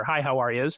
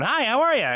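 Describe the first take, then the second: First: Said in the usual way. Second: High, swooping cartoon audition greeting; voiceover audition voice. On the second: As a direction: pitch it up like an audition tape hello. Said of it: "it's your voice going".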